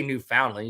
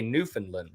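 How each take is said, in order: First: Newfoundland with a full "found" vowel; the middle of Newfoundland rhymes with "sound"; spelled-out pronunciation. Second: Newfoundland squeezed to NEW-fin-lun, lower and softer; Newfoundland as NEW-fun-lun, no "ow" sound; local pronunciation. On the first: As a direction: say Newfoundland like new-found-lund. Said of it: "I don't think you say Newfoundland". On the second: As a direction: say Newfoundland with a swallowed middle, "fin" for "found". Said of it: "You say Newfoundland". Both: Shown as a demonstration.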